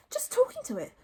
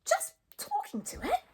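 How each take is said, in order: First: High, sheepish reply; embarrassed Hiccup. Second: Very high, disbelieving echo; squeaky astonishment, rising at the end; astonished Fishlegs. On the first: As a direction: admit it awkwardly in a high voice. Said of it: "mumbled Hiccup, very embarrassed". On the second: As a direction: repeat it as an incredulous question. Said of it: "gasped Fishlegs in astonishment". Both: A narrator's reading.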